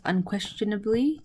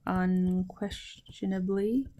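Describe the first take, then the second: First: Said in the usual way. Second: Soft, drawn-out syllables; slow dictation. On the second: Shown as a demonstration. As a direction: repeat it slowly and softly for learners. Teacher repeats translation slowly for learners.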